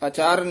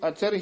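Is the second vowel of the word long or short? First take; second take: long; short. First: The second vowel is long. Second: The second vowel is short. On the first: The speaker calls it wrong. "अचार नहीं कहना है" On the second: The speaker calls it right. "इथे अचर ही उच्चारण करना है"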